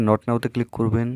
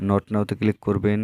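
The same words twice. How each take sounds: The two takes are said the same way.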